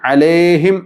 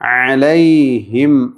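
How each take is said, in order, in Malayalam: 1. നടുവിലെ സ്വരം വെറും 'e' ശബ്ദമാണ്. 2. നടുവിലെ സ്വരം വ്യക്തമായ 'ai' ഗ്ലൈഡ് ആണ്. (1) "അലേഹിം എന്ന് ഓതരുത്" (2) "യാ അവ്യക്തമാകാതെ ശ്രദ്ധിക്കണം"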